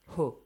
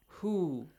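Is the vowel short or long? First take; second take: short; long. First: The vowel is short and clipped. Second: The vowel is stretched out long. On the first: The speaker calls it wrong. "you do not say hu" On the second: The speaker calls it right. "You gotta stretch the sound, make it longer"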